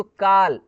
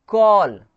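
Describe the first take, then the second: First: "काल" with a flat open "aa" instead of "aw"; mispronounced call. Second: "कॉल" loud, with a rounded long "aw"; correct AW sound. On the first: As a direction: model the common mistake "काल", rhyming with "kaal". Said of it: "ऐसा नहीं, इसको कैसे पढ़ेंगे". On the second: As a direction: model "कॉल" with rounded lips on the vowel. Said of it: "इसको कैसे पढ़ेंगे". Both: Shown as a demonstration.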